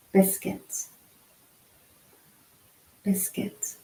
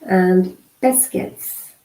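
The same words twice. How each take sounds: First: Voiceless mouthing of biscuits while signing; soft unvoiced biscuits, mouthed for lip reading; whispered lip pattern. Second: Said in the usual way. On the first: Shown as a demonstration. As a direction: breathe biscuits out with no voice, just shaping the lips. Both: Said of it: "pronouncing the word on your lips".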